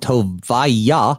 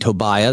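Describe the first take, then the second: First: The final syllable yah is stressed. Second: The final syllable is not stressed. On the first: This is the technically correct pronunciation. "the reason why I hit that yah hard" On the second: This is the usual everyday pronunciation. "That's how we would say it"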